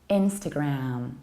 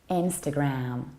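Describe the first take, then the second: The two takes are said the same way.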